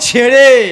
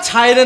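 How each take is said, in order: First: The first vowel is a plain 'e' sound. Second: The first vowel is a gliding 'ai' sound. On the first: The speaker calls it right. "শুদ্ধ উচ্চারণ" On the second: The speaker calls it wrong. "ছাইড়ে নয়"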